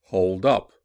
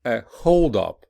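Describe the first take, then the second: First: "hold up" with UP punched and raised; stress on second part. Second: Noun form, punch HOLD in "a hold up"; stress on first part. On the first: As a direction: verb form, hit UP in "hold up". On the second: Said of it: "listen to stress pattern". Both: Shown as a demonstration.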